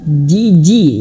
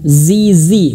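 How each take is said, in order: First: The consonant is a j sound. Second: The consonant is a buzzing z sound. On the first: The speaker calls it wrong. "bukan malah jiji" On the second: The speaker calls it right. "ada getarannya, ada suaranya"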